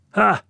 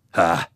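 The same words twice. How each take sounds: First: Very high, loud "huh?"; squawked challenge back at him; high-pitched, combative comeback; defiant retort. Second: Stern, angry challenge; sterner demand. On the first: Woman retorts in acted quarrel. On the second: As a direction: press hard for an answer. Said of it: "kysyy Juutas tiukemmin". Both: A narrator's reading.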